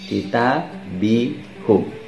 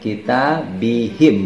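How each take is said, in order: First: The vowel after the h is u. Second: The vowel after the h is i. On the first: The speaker calls it wrong. "bukan kitabihum" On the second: The speaker calls it right. "maka akan dibaca kitabihim"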